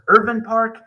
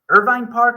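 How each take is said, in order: First: The second syllable rhymes with 'fin'. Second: The second syllable rhymes with 'fine'. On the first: "it's technically Irvin Park" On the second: "Is it Irvine Park"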